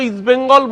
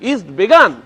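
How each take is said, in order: First: The second word is said as Bengal. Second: The second word is said as Began. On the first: The speaker calls it right. "আমাদের প্রাণপ্রিয় east বেঙ্গল" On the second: The speaker calls it wrong. "বলছেন"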